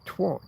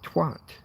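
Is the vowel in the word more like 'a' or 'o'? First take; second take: o; a. First: The vowel sounds like an o. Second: The vowel sounds like an a. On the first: The speaker calls it wrong. "Why does a or a become o in American?" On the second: The speaker calls it right. "No, he's not. He's a twat. Get it right"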